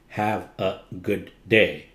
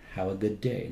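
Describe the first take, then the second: First: The words are said separately, not glided. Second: The words are glided smoothly together. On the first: The speaker calls it wrong. "That's not gliding" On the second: The speaker calls it right. "so you just glide them together"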